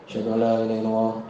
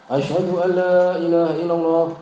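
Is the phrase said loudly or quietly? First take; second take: quietly; loudly. First: The phrase is said in a soft, low voice. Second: The phrase is said in a loud, full voice. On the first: Only the caller and those nearby hear it. "pelan dulu" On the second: It is called out for everyone to hear. "baru keras"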